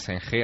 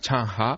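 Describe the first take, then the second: First: The name is read with Spanish-like sounds. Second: The name is said with Mandarin-like sounds. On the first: This is how the name is read outside China. The speaker calls it wrong. "Allí no se llama Zheng He" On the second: This is how people in China say the name. The speaker calls it right. "allí es como lo pronuncia"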